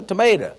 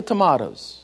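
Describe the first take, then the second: First: "tomato" with a Southern "ay" in the middle; homely American long A in "tomato". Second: "tomatoes" with a British "ah" in the middle; mock-British broad vowel in "tomatoes". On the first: Shown as a demonstration. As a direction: say "tomato" as to-MAY-tuh, down-home. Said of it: "Ain't no tomatoes, a tomato". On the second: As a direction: say "tomatoes" as to-MAH-toes, mimicking the English. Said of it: "Ain't no tomatoes".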